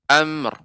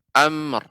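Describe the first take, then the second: The two takes are said the same way.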